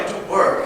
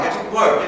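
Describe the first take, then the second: First: Hushed, breathy whisper of the same order; whispered repeat. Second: Said in the usual way. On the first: Acted. To Maggie, hurrying her again, whispered.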